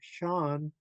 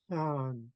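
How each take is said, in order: First: A strong throaty H sound follows the S. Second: A light puff of air follows the S. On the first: The speaker calls it wrong. "do a strong H sound from the back of the throat. Otherwise, it would sound like" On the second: The speaker calls it right. "you would hear the S followed by a little breath of air"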